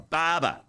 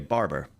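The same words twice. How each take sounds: First: It is said in an Australian accent. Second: It is said in an American accent.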